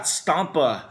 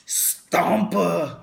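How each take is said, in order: First: Said in the usual way. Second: Stompa in a Schwarzenegger accent, higher and louder. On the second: Shown as a demonstration. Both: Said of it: "I always had to say her name with, like, a Schwarzenegger accent".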